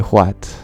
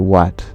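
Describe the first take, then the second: First: The w is aspirated with a breathy h-sound. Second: The w is plain with no breathy h-sound. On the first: "I would never say what" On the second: "I would say what. I wouldn't aspirate the W"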